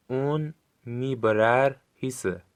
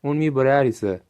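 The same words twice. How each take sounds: First: Slowly, syllable by syllable; drawn out for learners to copy; slow careful model. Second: Said in the usual way. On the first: Shown as a demonstration. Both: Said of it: "خوب گوش کنید و با صدای بلند تکرار کنید".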